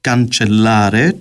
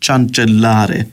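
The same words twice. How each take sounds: First: The word begins with a k sound. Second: The word begins with a ch sound. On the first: The speaker calls it right. "Γι' αυτό λαλούν cancellare" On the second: The speaker calls it wrong. "και όχι cancellare"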